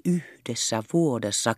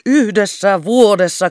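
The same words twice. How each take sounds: First: "Yhdessä vuodessa" said softly, hushed and secretive. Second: "Yhdessä vuodessa" loud, high and slow, rapturous; rapturous exclamation. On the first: Captain confiding the wonder to Kerttu, "Yhdessä vuodessa" hushed. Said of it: "alensi ääntänsä kuiskaukseksi". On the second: Captain pacing the room in rapture, "Yhdessä vuodessa" exclaimed. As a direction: proclaim "Yhdessä vuodessa" in ecstasy. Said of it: "haltioituneessa raivonnassa". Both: A narrator's reading.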